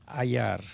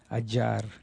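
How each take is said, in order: First: The double L sounds like a y. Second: The double L sounds like a j. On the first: "just follow us along with ayar" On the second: "some people learn Spanish with saying the j"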